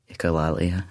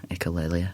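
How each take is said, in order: First: Echolalia said ee-koh-LAH-lee-uh, broad ah in the middle; lah pronunciation. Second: Echolalia said ee-koh-LAY-lee-uh, ay sound in the middle; lay pronunciation. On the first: Comparing two pronunciations, says Echolalia as ee-koh-LAH-lee-uh. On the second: Comparing two pronunciations, says echolalia as ee-koh-LAY-lee-uh. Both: Shown as a demonstration. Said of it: "Is it lalia or lalia?".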